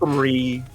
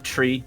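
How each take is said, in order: First: The word starts with a th sound. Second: The word starts with a plain t sound. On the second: "some of the Irish dot, uh, uh, accents. They'll say they'll tend to say tree instead"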